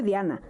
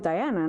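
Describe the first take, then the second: First: The name is said with a Spanish pronunciation. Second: The name is said with an English pronunciation. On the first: This is her real name. The speaker calls it right. "Yo soy Diana" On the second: This is not really her name. The speaker calls it wrong. "yo no soy Diana"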